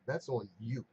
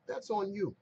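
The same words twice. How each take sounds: First: Said in the usual way. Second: "That's on you" pitched higher with the stress pushed onto "That's"; emphatic repeat. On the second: Real, not acted. Agent scolding the careless caller, higher emphatic "That's on you". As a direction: drive home "That's on you", hitting "That's" high. Repeats the blame line twice.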